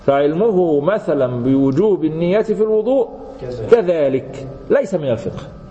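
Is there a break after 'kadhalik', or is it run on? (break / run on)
break. A break separates kadhalik from the next phrase. Likewise it is known through general evidence. The speaker calls it right. "شفت الفرق في القراءة؟"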